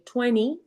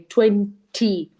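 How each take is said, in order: First: The t sound is soft and not stressed. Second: The t sound is crisp and fully pronounced. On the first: An American speaker says it. "Americans say twenty" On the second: A British speaker says it. "British will say twenty"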